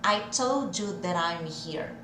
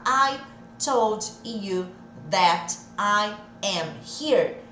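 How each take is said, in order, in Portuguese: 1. As palavras são unidas em sons ligados. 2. As palavras são ditas separadamente, sem ligação. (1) "Não acelerei a fala, eu só juntei os sons" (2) "Ao invés de falar"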